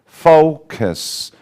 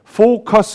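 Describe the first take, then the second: First: The first vowel is drawn out before the ending. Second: The first vowel is short and clipped. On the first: The speaker calls it right. "fo o 반동이 일어나는 걸 기다려준 다음에 다 일어나면은 kiss 넘어갑니다" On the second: The speaker calls it wrong. "너무 focus 이렇게 하지 말고"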